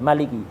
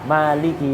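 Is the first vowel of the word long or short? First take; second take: short; long. First: The first vowel is kept short. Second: The first vowel is held long. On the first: "pakai qiraah yang pendek" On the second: "Baca qiraah yang Maliki panjang"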